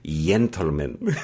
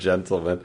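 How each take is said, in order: First: It is said with a Spain-style Spanish accent. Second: It is said with a plain English accent.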